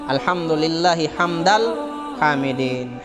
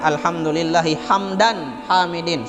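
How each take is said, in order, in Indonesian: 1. Kata kedua berakhir dengan bunyi l. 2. Kata kedua berakhir dengan bunyi n. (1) "Karena itu jumlah idhofah" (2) "Jangan mengatakan ... salah"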